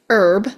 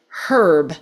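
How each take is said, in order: First: The h sound at the start is silent. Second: The h sound at the start is pronounced. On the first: "they drop the pronunciation of the H altogether" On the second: "they pronounce the H and they call it herb"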